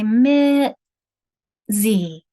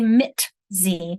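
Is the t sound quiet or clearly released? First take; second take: quiet; released. First: The t is very quiet, gliding into the z. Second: The t is clearly released before the z. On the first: The speaker calls it right. "That T is just real, real quiet there" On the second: The speaker calls it wrong. "I don't say mit z"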